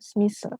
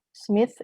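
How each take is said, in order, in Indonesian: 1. Nama itu berakhir dengan bunyi 's'. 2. Nama itu berakhir dengan bunyi 'th'.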